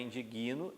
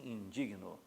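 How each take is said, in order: First: The stress falls on the syllable after 'di'. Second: The stress falls on the syllable 'dig'. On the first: The speaker calls it wrong. "a sílaba tônica vai recair sobre uma consoante, que é o G" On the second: The speaker calls it right. "igual ao adjetivo"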